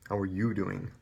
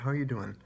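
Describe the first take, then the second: First: It sounds flat and uninterested. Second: It sounds warm and genuinely interested. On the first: The asker does not really care. The speaker calls it wrong. "Or don't say" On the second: The asker really wants to know. The speaker calls it right.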